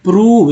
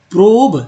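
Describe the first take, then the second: First: प्रूव with a long oo, "proov"; rounded oo in प्रूव; correct reading. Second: प्रोब with a long o, "prohb"; spelling-style long o in प्रोब; wrong reading. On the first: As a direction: say प्रूव to rhyme with "move". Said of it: "ओ को ऊ पढ़ने". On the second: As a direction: say प्रोब to rhyme with "robe". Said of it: "ओ को ऊ पढ़ने प्रूव". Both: Shown as a demonstration.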